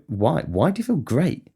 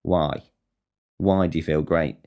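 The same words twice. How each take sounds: First: High, rising, incredulous questioning; suspicious interrogation. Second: Low-key, falling, suspicious question; deadpan challenge. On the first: Grilling someone who says they're great, incredulous questioning. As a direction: demand an explanation, pitch climbing sharply. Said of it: "followed by an interrogation". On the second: Challenging someone who admits feeling great, deadpan suspicion. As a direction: challenge it drily without raising your pitch. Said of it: "that gets challenged". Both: Acted.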